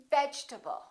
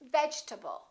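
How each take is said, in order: First: The word is said with three syllables. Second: The word is said with three syllables.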